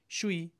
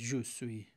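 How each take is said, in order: First: The two words merge into one short syllable. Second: Both syllables are said fully and separately. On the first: "میگن شوی" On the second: "je suis حالت خیلی معمولی رو داره. فرانسوی ها نمیگن je suis"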